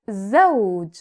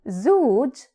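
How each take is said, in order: First: The vowel glides from 'a' into 'w'. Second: The vowel is a plain 'oo' sound. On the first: The speaker calls it right. "it is zawj" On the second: The speaker calls it wrong. "It is not zuj"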